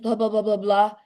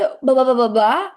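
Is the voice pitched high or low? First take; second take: low; high. First: The voice is pitched low. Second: The voice is pitched high. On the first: "Nada rendah" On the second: "That's nada tinggi"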